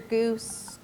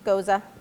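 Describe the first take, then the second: First: The word is one syllable, like goose. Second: The word is two syllables, ending in ah. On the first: The speaker calls it wrong. "We hear goose" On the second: The speaker calls it right. "It just goza"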